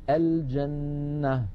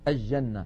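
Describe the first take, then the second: First: The L is pronounced clearly before the J. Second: The L merges into a doubled J sound. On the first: The speaker calls it right. "لابد من بيان اللام، فنقول الجنة" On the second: The speaker calls it wrong. "يجعلون اللام عند الجيم شمسية، فيقولون الجنة"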